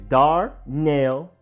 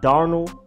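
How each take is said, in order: First: The last syllable sounds like nail. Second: The last syllable does not sound like nail. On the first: The speaker calls it right. "like hammer and nail" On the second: The speaker calls it wrong. "It's not Darnell"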